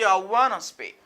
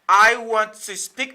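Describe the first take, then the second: First: Want to is reduced to one word, wanna. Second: Want to is said as two full words. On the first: "Li remplace want to par wanna" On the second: "au lieu de dire want to"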